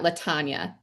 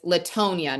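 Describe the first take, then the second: First: The middle syllable sounds like 'tan'. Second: The middle syllable sounds like 'tone'. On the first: The speaker calls it wrong. "not Latanya" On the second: The speaker calls it right. "So it's Latonia"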